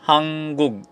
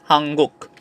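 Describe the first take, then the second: First: The word ends in a g sound. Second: The word ends in a k sound. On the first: "Fourth one is hanggug" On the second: "but you pronounce it as hangguk"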